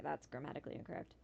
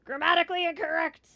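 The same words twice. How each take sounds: First: Low, soft, quick aside; note the error quickly under your breath; muttered correction. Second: High, loud proclamation of the error; loud outcry. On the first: Player spots a mistake in the email, quick low mutter. Notices error in game text. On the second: Player flags a mistake needing a fix, loud outcry. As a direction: call it out loudly, pitch raised. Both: Real, not acted.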